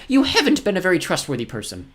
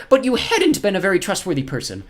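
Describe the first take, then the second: First: High, loud emphasis on "haven't"; stress on HAVEN'T. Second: High, loud emphasis on "hadn't"; stress on HADN'T. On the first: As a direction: give the correction, leaning on "haven't". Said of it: "But you should have said". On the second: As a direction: quote the error, leaning on "hadn't". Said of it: "You said". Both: Acted.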